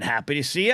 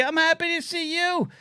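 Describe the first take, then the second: First: Said in the usual way. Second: Much higher, sing-song and sweet; cutesy high reply. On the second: Pretend. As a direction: coo it back like to a child. Answers chat in cutesy voice.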